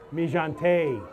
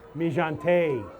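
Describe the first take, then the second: First: It is said with a French-style pronunciation. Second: The same.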